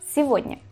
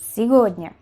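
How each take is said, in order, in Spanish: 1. La consonante del medio es una V suave. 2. La consonante del medio es una G dura. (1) "Se dice сегодня, con V" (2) "No decimos eso aunque escribamos una G"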